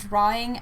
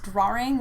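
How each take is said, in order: First: It is said with no R sound inside. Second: It is said with an R sound inside.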